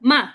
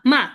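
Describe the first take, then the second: No difference in how they are said.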